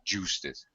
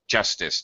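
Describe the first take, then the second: First: The first vowel is said long. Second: The first vowel is said short. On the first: The speaker calls it wrong. "not justice" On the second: The speaker calls it right. "it's a short sound"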